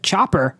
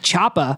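First: The word's ending is clearly enunciated. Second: The word's ending is slurred. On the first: This fits how the character talks elsewhere. The speaker calls it right. "based on how he enunciates all his other words, he would have said chopper" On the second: This is put on just for the famous line. The speaker calls it wrong. "not choppa"

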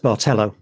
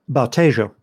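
First: The middle consonant sounds like an L sound. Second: The middle consonant sounds like a Y sound. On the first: The speaker calls it wrong. "was reading it as Bartello" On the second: The speaker calls it right. "Which is the way it would be pronounced in Spanish because of the way a double L is pronounced"

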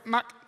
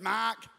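First: The word is said in a Singaporean accent. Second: The word is said in an Australian accent. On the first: "If you're from Singapore" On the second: "If you're Australian"

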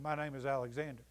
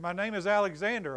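First: It is murmured quietly and hesitantly. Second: It is said a little louder.

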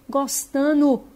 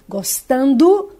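First: The D in the ending is dropped. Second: The D in the ending is clearly pronounced. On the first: The speaker calls it wrong. "elas estão engolindo o D e falam" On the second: The speaker calls it right. "em vez de elas falarem gostando"

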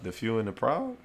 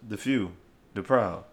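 First: The phrase is said quickly, run together. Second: The phrase is said slowly with pauses.

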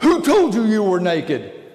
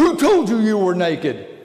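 First: It is said in an angry tone. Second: The same.

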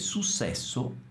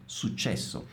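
First: The middle consonant sounds like 's'. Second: The middle consonant sounds like 'ch'. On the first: The speaker calls it wrong. "non pronunciando correttamente la C" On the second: The speaker calls it right. "pronuncia perfettamente successo"

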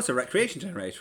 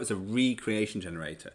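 First: Recreation is said normally, meaning leisure. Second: Re-creation is said with the prefix stressed.

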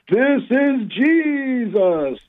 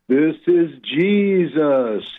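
First: It is said very loudly. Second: It is said a little louder.

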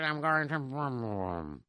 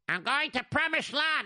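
First: The phrase is spoken quietly and softly. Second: The phrase is spoken loudly and clearly. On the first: The speaker is embarrassed about the trip. "couldn't hear you" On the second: The speaker wants to be heard. "Speak louder"

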